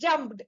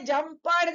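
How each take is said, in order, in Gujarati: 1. d સીધો p સાથે જોડાયેલો છે. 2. અંતિમ ભાગ અલગ અક્ષર તરીકે બોલાય છે. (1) "ઈ જે છે સાયલન્ટ અને ડ ને એકદમ પ ની સાથે આપણે જોડી દેવાનો છે" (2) "નહીં"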